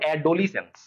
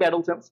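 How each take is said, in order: First: It is said with four syllables, including 'lee'. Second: It is said with three syllables, no middle 'lee'. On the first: This is a spelling aid, not the real pronunciation. "আমরা মনে মনে বলবো" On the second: This is how the word is normally pronounced. "উচ্চারণ আমাদের ঠিক থাকবে"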